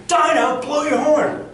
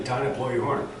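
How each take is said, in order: First: Loud, high-pitched yell; shouting captain. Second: Said in the usual way. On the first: Shown as a demonstration. Captain calling Dinah to blow the horn, shouted. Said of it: "because the captain is shouting". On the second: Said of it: "we're not gonna yell".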